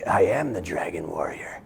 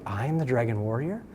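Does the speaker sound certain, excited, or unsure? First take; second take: certain; unsure. First: It sounds calm and certain, like a statement. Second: It sounds unsure and astonished, like a question.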